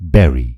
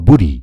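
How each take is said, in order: First: The first vowel sounds like 'beh'. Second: The first vowel sounds like 'boo'. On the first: The speaker calls it right. "यसको सही उच्चारण हो" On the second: The speaker calls it wrong. "बरी अथवा बुरी भन्नुभयो भने गलत हुन्छ"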